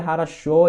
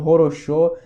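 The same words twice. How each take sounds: First: Хорошо as "ha-ra-SHO", first two vowels A; O read as A. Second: Хорошо as "ho-ro-SHO", read as spelt; every O pronounced O. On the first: Student asking why it is so, хорошо as "ha-ra-SHO". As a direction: turn the unstressed O's of хорошо into A. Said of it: "se lê хорошо e não хорошо". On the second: Student quoting the mistaken reading, хорошо as "ho-ro-SHO". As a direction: keep a full O in every syllable of хорошо. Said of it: "e não хорошо". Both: Shown as a demonstration.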